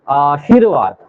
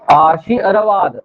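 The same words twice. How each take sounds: First: आशीर्वाद said whole and smooth; joined word. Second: आशी अरवाद drawn out slowly in two parts; slow split. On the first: Teacher then saying आशीर्वाद whole, smoothly. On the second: Teacher breaking down आशीर्वाद for students, slowly. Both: Shown as a demonstration. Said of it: "अब पढ़िए इसको".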